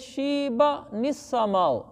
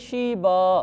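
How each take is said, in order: First: The word ends with an n joined onward. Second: The word ends cleanly on a long vowel. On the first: The reciter continues without pausing. "अगले के साथ मिलाकर पढ़ना है" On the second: The reciter pauses at this word. "अगर तो यहाँ रुक जाएं फिर तो इसको पढ़ेंगे"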